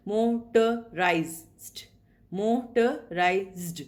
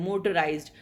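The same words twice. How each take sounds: First: "motorized" stretched very slowly, each syllable split apart. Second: Said in the usual way. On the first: Shown as a demonstration. Teacher to students counting syllables, very slow split syllables. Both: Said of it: "So there are four sounds".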